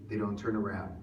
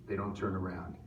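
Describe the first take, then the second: Both takes have the same delivery.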